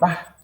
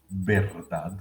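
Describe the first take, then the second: First: The word is shortened to one syllable. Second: The word is said in full, with both syllables. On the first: The speaker calls it wrong. "a veces simplemente decimos va" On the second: The speaker calls it right. "El lenguaje ideal sería que todos todo el tiempo dijéramos verdad"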